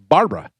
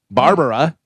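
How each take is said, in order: First: The name is said with two syllables. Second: The name is said with three syllables. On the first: This is the shortened form she uses now. "drop the other A. So she's just" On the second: This is the original form of her name. "which was her original name"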